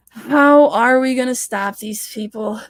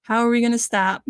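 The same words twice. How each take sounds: First: How stressed, said louder and slower; emphatic slow repeat. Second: Said in the usual way. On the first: Real, not acted. To chat viewers about stopping them, loud emphatic repeat. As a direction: lean into it and slow down, hitting How.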